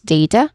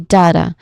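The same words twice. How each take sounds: First: The first vowel glides like in 'day'. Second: The first vowel is a short 'a'. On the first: This is the more common American form. "which is more common in American English. We say day, which has, you know, which has a clear diphthong sound" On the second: This is the more common British form. "which is more common in British English. ... we will have a short a vowel sound"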